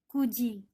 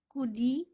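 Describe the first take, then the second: First: The middle consonant is a 'j' sound. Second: The middle consonant is a 'd' sound. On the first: The speaker calls it right. "tapi dibaca menjadi kuji" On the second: The speaker calls it wrong. "bukan dibaca kudi"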